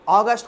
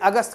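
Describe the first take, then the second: First: It is pronounced the English way. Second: It is pronounced the Hindi way. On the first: The speaker calls it right. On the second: The speaker calls it wrong.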